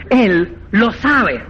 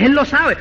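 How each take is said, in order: First: "Él lo sabe" stretched out slowly; "sabe" drawn out slowly; slow, knowing emphasis. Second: Said in the usual way. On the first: Shown as a demonstration. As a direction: drag it out meaningfully.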